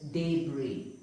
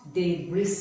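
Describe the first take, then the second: First: "debris" as day-bree; "debris" with the last letter dropped; silent S. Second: "debris" wrongly as day-briss; final S sounded. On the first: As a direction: end "debris" on an ee, no S. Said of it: "The S is silent". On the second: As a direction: hiss the last S of "debris". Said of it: "It is not debris". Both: Shown as a demonstration.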